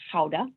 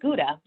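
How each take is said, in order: First: It starts with a guttural throat sound. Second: It starts with a hard English G sound.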